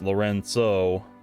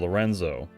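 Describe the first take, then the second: First: The middle consonant is a ts sound. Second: The middle consonant is a plain z sound. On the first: The speaker calls it right. "actually pronounced Lorenzo" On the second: The speaker calls it wrong. "as opposed to Lorenzo"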